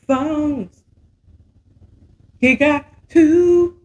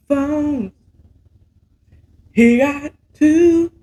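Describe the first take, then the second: No difference in how they are said.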